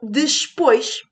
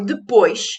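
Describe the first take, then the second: First: An 's' sound is inserted before the 'p'. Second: There is no 's' sound before the 'p'. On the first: This is a popular, colloquial form. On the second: This is the standard form.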